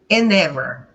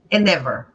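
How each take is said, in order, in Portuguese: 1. As palavras são ligadas e o d ainda se ouve. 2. As palavras são ligadas e o d não se ouve. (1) "eu já faço a ligação, faço o link" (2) "esse D também já vai para o espaço"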